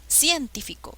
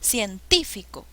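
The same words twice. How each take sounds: First: The stress is on the first syllable. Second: The stress is on the second syllable. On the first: The speaker calls it wrong. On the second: The speaker calls it right. "suena mejor"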